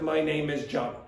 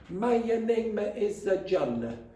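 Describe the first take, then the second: First: No extra vowel sound is added in the phrase. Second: An extra 'uh' vowel sound is added in the phrase. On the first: The speaker calls it right. "instead of" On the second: The speaker calls it wrong. "If you want to sound like an Italian, the stereotype, you say"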